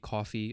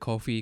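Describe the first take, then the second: First: It sounds exactly like the word 'coffee'. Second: The first syllable has a long 'oh' vowel. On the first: "I think it's just coffee" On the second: "I want to say Ko because of the way I pronounce things"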